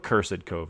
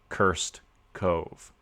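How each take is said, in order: First: Cursed is said as two syllables. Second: Cursed is said as one syllable.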